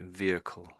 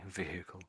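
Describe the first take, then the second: First: The h sound is weak, almost dropped. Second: The h sound is clearly pronounced. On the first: "the H dies a little bit" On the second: "the American way"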